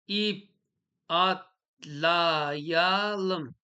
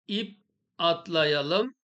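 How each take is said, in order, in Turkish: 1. Yavaş okunuyor, ayrı hecelere bölünerek. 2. Heceler arasında ara verilmeden akıcı okunuyor.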